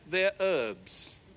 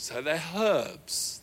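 First: It is said with a silent h, American style. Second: It is said with a clear h, British style.

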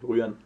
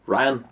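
First: The name is said with a Danish pronunciation. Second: The name is said with an English pronunciation. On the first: This is how it is said in Denmark. "i Danmark er det Ryan" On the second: This is how it is said where the bear was made. "Tænk over hvor jeg har lavet ham, der er det nok Ryan"

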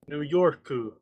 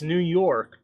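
First: It is said in a Japanese-style accent. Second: It is said in a plain English accent.

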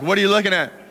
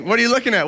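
First: It sounds accusing and confrontational. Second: It sounds curious and playful.

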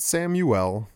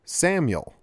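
First: The name is said with three syllables. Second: The name is said with two syllables. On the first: The speaker calls it wrong. "Not Samuel" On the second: The speaker calls it right. "Two syllables, not three"

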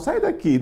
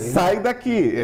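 First: It is said softly and pleadingly. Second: It is said firmly and abruptly. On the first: You actually want it to stay. The speaker calls it wrong. "se for com essa suavidade" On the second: You really want it gone. The speaker calls it right. "é de uma vez"

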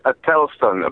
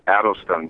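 First: The name is said with a non-American cadence. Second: The name is said with an American cadence. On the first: The speaker calls it right. "it's Adelston" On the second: The speaker calls it wrong. "Americans have a different sort of cadence. They say Adelston"

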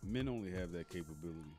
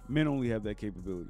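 First: It is said at a normal volume. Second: It is said noticeably louder.

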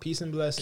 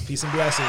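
First: It is said in his normal voice. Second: It is said in a put-on rapper voice.

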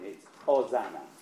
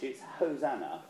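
First: The word begins without an H sound. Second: The word begins with an H sound. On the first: This is the Latin form of the word. "It's when it's in Latin" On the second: This is the English form of the word. "It's H when you're in English"

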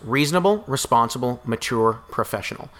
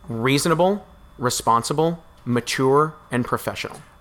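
First: It is said at normal speed. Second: It is said more slowly.

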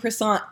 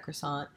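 First: It is pronounced with a strong French accent. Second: It is pronounced the plain English way.

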